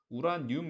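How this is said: It is said as Korean 'u-ra-nyum'. "우리나라 사람들은 당연히 한국말로 이걸 우라늄 이렇게 읽는데"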